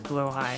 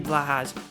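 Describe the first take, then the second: First: The first syllable sounds like 'blow'. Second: The first syllable sounds like 'blah'. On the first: This is how the name is commonly said. "but it's blowhigh" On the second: This is how the name is meant to sound. "It should be Blahaj"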